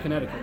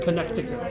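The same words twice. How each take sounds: First: The word is said in a casual, reduced way. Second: The word is said in a careful, full way. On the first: This is how the speaker usually says it. "I just say Connecticut" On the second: This is the official way to say it. "the way that you're actually supposed to say it"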